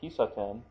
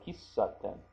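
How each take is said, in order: First: The S sound is short and quick. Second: The S sound is held long. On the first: "Instead of kisaten" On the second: "I kind of elongate the S sound"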